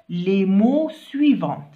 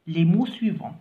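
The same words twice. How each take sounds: First: SUIVANTS said with a sounded T at the end; final t slip. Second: SUIVANTS with the final t silent; corrected silent ending. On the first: Teacher reading out the task to pupils, slips a t onto "suivants". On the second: Teacher correcting the slip for pupils, "suivants" without its t. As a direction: end "suivants" on the nasal vowel, no t. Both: Real, not acted.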